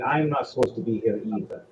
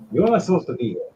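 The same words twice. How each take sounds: First: "I'm" stands out, the rest quieter; stress on I'M. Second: High, quick hit on "You're"; "You're" jumps up in pitch, said fast; stress on YOU'RE. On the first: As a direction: lean on "I'm", then let the rest fall. Same words turned on the speaker. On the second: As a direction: punch "You're" high, then drop through the rest. Acted line, contrasted with next. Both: Acted.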